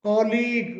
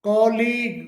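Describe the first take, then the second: No difference in how they are said.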